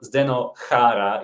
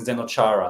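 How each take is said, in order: First: The name is said with a Slovak pronunciation. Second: The name is said with an American pronunciation. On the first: This is the original form. "the right pronunciation in Slovak" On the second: This is the form used in America. "for many years it has been Zdeno Chara"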